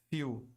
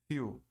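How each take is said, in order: No difference in how they are said.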